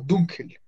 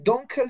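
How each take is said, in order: First: The first vowel is a pure 'oo' sound. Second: The first vowel sounds like English 'uh'. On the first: The speaker calls it right. "Se pronuncia la U como una U" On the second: The speaker calls it wrong. "No decir dunkel"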